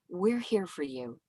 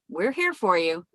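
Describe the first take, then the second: First: It sounds concerned and somber. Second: It sounds more optimistic and upbeat.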